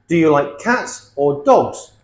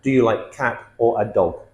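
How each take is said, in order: First: "cats" ending in s, "dogs" ending in z; plural endings. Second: "cat" and "dog" with no final s; missing plural endings. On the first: Teacher models the plural question, clear endings on "cats" and "dogs". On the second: Teacher shows the mistake, "cat" and "dog" left without plurals. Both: Shown as a demonstration.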